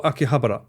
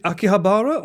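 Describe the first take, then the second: First: Akihabara with short, quick ba-ra; second option. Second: Akihabara with long, stressed BAA; first option. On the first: Streamer asking chat which is right, Akihabara with short ba-ra. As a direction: say Akihabara as aki-HA-ba-ra. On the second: Streamer asking chat which is right, Akihabara with long BAA. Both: Shown as a demonstration. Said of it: "is it Akihabara or Akihabara".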